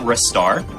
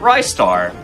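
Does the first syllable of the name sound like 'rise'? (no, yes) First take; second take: no; yes. First: The first syllable does not sound like 'rise'. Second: The first syllable sounds like 'rise'. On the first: "so I pronounce it Ristar" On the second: "a lot of people pronounce it Rystar"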